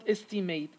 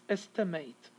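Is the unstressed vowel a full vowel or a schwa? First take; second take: full vowel; schwa. First: The unstressed vowel is a full vowel. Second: The unstressed vowel is reduced to schwa. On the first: The speaker calls it wrong. "it's not estimate" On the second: The speaker calls it right. "it's going to be a schwa here"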